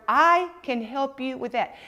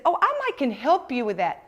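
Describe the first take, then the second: First: Slow, deliberate "I can help you with that"; keyword stressed. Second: Said in the usual way. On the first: Shown as a demonstration. Coach highlighting the rep's key phrase, slow and stressed. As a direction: lean on "can help" slowly.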